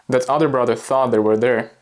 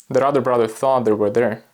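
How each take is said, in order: No difference in how they are said.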